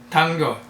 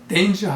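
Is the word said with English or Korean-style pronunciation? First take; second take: Korean-style; English. First: It is said letter by letter, Korean-style. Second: It is said with English pronunciation. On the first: "글자 그대로 콩글리시로 발음하면" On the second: "영어로 danger 하면"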